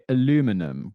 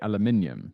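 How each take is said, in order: First: The word is said the non-British way. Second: The word is said the British way. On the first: This is how the other person says it. "you would say aluminum" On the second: This is how the British speaker says it. "whereas I would say aluminium"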